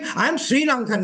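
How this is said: The stress falls on Sri Lankan. "I'm enunciating Sri Lankan. I'm not Japanese"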